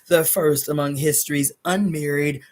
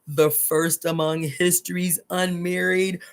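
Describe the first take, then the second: First: The phrase is read at a quicker pace. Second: The phrase is read at a slower pace.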